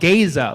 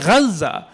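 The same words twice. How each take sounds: First: It is said in an American accent. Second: It is said in an Arabic accent. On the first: "I heard somebody call it Gaza"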